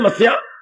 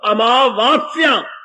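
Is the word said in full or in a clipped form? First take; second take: clipped; full. First: The opening syllables are dropped from the word. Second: All syllables of the word are pronounced. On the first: The speaker calls it wrong. "ऐसे ही बोल बोल के शब्दों को बड़ा बिगाड़ा पंजाबी के अंदर" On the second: The speaker calls it right. "शब्द अमावस्या है।"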